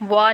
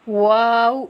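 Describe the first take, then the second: First: وا ending on an open "aa"; short وا without closing the lips; wrong open wa. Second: واو gliding into a rounded "oo"; held واو with pursed-lip ending; well-rounded lips. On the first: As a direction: leave off the rounded ending in وا. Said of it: "وا نہیں کرنا". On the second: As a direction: round the lips fully on both ends of واو. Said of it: "ہونٹوں کو اچھے سے گول کرنا ہے". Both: Shown as a demonstration.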